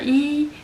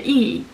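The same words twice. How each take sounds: First: The syllable is said with the first tone. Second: The syllable is said with the fourth tone.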